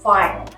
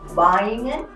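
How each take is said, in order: First: The name begins with an F sound. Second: The name begins with a W sound. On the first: The speaker calls it right. "you say Feingen" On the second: The speaker calls it wrong. "so you don't say Weingen"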